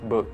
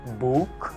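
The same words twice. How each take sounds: First: The vowel is kept short. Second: The vowel is drawn out long. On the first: The speaker calls it right. "pendek aja" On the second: The speaker calls it wrong. "Bukan dibaca book seperti kita baca biasa"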